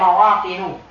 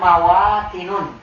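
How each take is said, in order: First: The word ends in a plain u vowel. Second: The word ends in u followed by n. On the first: The speaker calls it right. "mawatinu, bukan" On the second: The speaker calls it wrong. "bukan mawatinun"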